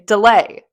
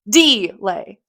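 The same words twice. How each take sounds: First: The stress is on the second syllable. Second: The stress is on the first syllable. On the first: The speaker calls it right. "Lay is the stress part of that" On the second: The speaker calls it wrong. "you wouldn't say delay"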